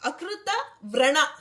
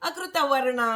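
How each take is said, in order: First: The second word begins with a vr cluster. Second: The second word has r after the vowel. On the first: The name refers to wounds. The speaker calls it right. "ಅಲ್ಲಿ ವರ್ಣ ಅಲ್ಲ, ವ್ರಣ" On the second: It is a careless slip from speaking fast. The speaker calls it wrong. "ಸ್ಪೀಡಾಗಿ ಹೇಳಕ್ ಹೋಗಿ ಅಕೃತ ವರ್ಣ ಅಂತೀವಿ"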